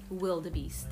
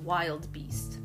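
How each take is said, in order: First: It is said as three syllables, wil-de-beest. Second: It is said as two syllables, wild beast. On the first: The speaker calls it right. "but it is" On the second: The speaker calls it wrong. "I thought it was wild beast"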